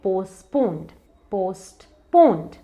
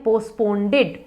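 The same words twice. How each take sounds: First: पोस्टपोन्ड with no extra syllable; two deliberate beats, पोस्टपोन्ड; correct pronunciation. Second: पोस्टपोन्डेड with an extra "-ded"; added final syllable on पोस्टपोन्डेड; wrong pronunciation. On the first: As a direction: say पोस्टपोन्ड as "post-poned". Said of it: "इसका correct pronunciation है". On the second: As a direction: say पोस्टपोन्डेड as "post-pon-ded". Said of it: "spelling में तो है ही नहीं". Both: Shown as a demonstration.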